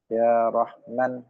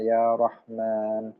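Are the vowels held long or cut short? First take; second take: short; long. First: The long vowels are cut short. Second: The long vowels are held long. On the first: The speaker calls it wrong. "memendekkan yang harusnya panjang" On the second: The speaker calls it right. "yang harusnya panjang"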